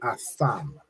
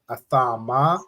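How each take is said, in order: First: The word ends with a closed consonant sound. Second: The word ends with an open vowel sound. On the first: The speaker calls it right. "the a drops off from the ma" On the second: The speaker calls it wrong. "instead of saying a tha ma"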